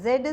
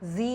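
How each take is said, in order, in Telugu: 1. ఈ అక్షరాన్ని zed అని అంటారు. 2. ఈ అక్షరాన్ని zee అని అంటారు. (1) "బ్రిటిష్ ప్రొనౌన్సియేషన్" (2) "అమెరికన్"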